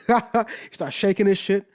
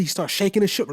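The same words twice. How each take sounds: First: Drawn out, savouring each word; slow amused repeat. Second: Said in the usual way. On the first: Real, not acted. Repeating the MC's fit slowly for effect. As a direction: stretch it out to let it land. Repeats the line after laughing.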